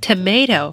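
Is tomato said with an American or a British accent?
American. It is said with an American accent. "在美音里我们会读成tomato"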